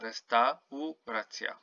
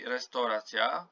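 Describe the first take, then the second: First: Every vowel is pronounced clearly and fully. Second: The vowels are reduced like English speech. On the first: The speaker calls it right. "You have to pronounce each and every um, vowel" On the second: The speaker calls it wrong. "you don't say restauracja like in English"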